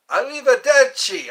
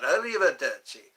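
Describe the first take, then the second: First: "Arrivederci" called out high and loud; loud Italian goodbye. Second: Said in the usual way. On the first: Shown as a demonstration. Practising Italian goodbyes for Eddie, calling "Arrivederci" loud and high. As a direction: belt out "Arrivederci" with a big falling tune. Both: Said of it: "I gotta learn these words".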